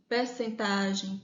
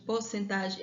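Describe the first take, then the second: First: "percentagem" said with open per, not por; slowly, "percentagem" starting per. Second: "porcentagem" said with por, not per; "porcentagem" starting por. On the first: Teacher comparing variants: "percentagem" with per. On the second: Teacher comparing variants: "porcentagem" with por. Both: Shown as a demonstration. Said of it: "prefiro porcentagem".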